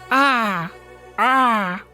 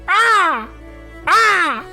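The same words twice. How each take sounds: First: It is said more quietly. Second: It is shouted loudly.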